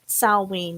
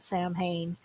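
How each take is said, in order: First: It is said with a w sound, like 'sow-win'. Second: It is said with an h sound, like 'sam-hain'. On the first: The speaker calls it right. "Salween, not Sam Hain" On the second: The speaker calls it wrong. "not Sam Hain"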